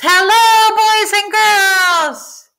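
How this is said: It is called out loudly.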